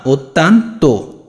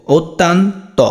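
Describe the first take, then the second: First: ওত তান তো slowly, ending on rounded "to"; correct final o. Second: ওত তান ত ending on open "taw"; wrong final vowel. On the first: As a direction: split ওত তান তো, close on ও. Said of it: "না". (ধীরে ভেঙে শেষে "তো") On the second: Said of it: "এটা কি উচ্চারণ এমন?". (ভুল করে শেষে "ত") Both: Shown as a demonstration.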